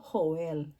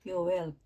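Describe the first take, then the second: First: The name starts with an H sound. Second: The name starts with a Y sound. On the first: This is the Tagalog reading. "kung tatagalogin naman natin" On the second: This is the Hebrew reading. "kung babasahin talaga ito sa Hebrew ay Yoel"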